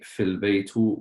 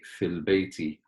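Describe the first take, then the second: First: The last word ends with a 'u' vowel. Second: The last word ends with an 'i' vowel. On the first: The speaker calls it wrong. "we don't say fil baytu" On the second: The speaker calls it right. "we say fil bayti"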